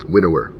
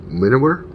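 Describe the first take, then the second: First: WINNOWER with a falling, final tune; settled statement. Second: WINNOWER rising high like a question. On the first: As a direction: confirm Winnower, pitch dropping. Settles on the card name. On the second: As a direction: try out Winnower, unsure, pitch climbing. Unsure reading, then settles it. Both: Real, not acted.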